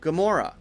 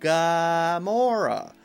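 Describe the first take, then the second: First: The first vowel is weak and reduced. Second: The first vowel is full and clear. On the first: The speaker calls it right. "we'll just say G, G, G, G, Gamora" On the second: The speaker calls it wrong. "instead of saying Gamora"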